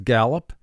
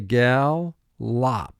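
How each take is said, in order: First: The word is said smoothly as one unit. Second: The word is split with a pause between syllables. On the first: This is how it is said in conversation. "our speaking pronunciation for this is gallop" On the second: This is said to help with spelling. "but for spelling we say gal, lop"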